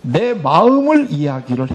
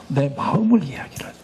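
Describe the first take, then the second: First: Said in the usual way. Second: 마음을 whispered softly, leaning in on 마음을; hushed stress on 마음을; emphatic whisper. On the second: Shown as a demonstration. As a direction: breathe 마음을 as the key word. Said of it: "심정 대화의 말하기는 내 마음을 이야기를".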